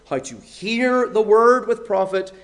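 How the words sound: The word hear is stressed. The point is the act of listening itself. "with the stress on hear"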